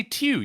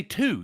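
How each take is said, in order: First: Two said as "tyoo"; two rhymed with "few"; British "tyoo". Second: Two said "too", no glide; T straight into "oo" in two; two without any Y sound; plain number two. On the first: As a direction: put a Y-glide in two. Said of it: "you don't say two". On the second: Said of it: "You say two". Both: Shown as a demonstration.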